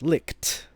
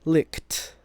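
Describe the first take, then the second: First: The final T sound is exaggerated and emphasized. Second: The final T sound is exaggerated and emphasized.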